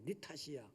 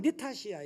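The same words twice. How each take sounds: First: Much softer repeat of 네 탓이야; quiet repeat. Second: Said in the usual way. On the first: Shown as a demonstration. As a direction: drop to a murmur on 네 탓이야. (네 탓이야를 아주 작게) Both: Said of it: "이걸 얘기하는 거야".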